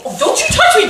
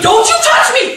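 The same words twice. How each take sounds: First: Sharp, raised voice pulling away; angry warning. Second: Full angry shout, pitched higher. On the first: Wife pulling away from her husband, angry and raised. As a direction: fend him off angrily. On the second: Wife yelling at her husband to keep away, shouting. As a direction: scream it at him to back off. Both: Acted.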